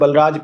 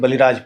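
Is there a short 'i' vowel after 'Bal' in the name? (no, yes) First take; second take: no; yes. First: The name is said without a vowel after 'Bal'. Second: The name is said with a short 'i' after 'Bal'. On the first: The speaker calls it wrong. "मैं कभी इ छोटी ई की मात्रा नहीं लगा पाता। Professor बलराज Pandey ही कहता हूँ" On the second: The speaker calls it right. "उनका वास्तविक नाम प्रोफ़ेसर बलिराज पांडे है"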